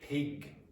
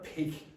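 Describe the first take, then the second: First: The P has a puff of air. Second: The P has no puff of air. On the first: The speaker calls it right. "it's pig" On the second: The speaker calls it wrong. "It's not pig"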